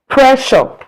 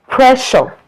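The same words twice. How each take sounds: The two takes are said the same way.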